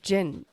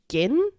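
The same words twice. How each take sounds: First: It begins with a soft J sound. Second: It begins with a hard G sound. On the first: "Or is it gin?" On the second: "Gin pronounced with a hard G"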